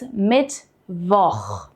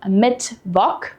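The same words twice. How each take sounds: First: The word ends with a raspy throat sound. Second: The word ends with a hard k sound. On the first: The speaker calls it right. "It's Mittwoch. This is the so-called Ach-Laut" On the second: The speaker calls it wrong. "We don't pronounce C H as a K here"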